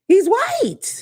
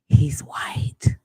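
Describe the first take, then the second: First: It is said in a normal voice. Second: It is whispered.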